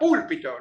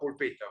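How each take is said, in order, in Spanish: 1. El acento está en la primera sílaba. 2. El acento está en la segunda sílaba. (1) "se dio cuenta que era púlpito" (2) "no pulpito"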